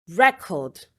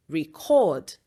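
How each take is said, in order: First: "record" as a noun, REC-ord; stress on first syllable. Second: "record" as a verb, re-CORD; stress on second syllable. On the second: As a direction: hit the last syllable of "record". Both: Shown as a demonstration. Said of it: "nouns that can also be verbs".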